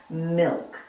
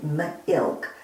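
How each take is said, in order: First: Said in the usual way. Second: "milk" split as m, then ilk; segmented phonics "milk": m-ilk; sounded out. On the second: Shown as a demonstration. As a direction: break "milk" after the m to show the short i. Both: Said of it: "Milk is an I word".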